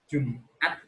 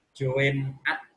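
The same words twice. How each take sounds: First: Said in the usual way. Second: "Jumat" with a hint of "oe"; old spelling. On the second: Shown as a demonstration. A teacher reading the old spelling of "Jumat". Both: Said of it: "tapi dibaca Jumat".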